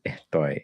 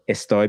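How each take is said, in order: First: The s is softened into an h-like breath. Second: The s is a clear hissing sound.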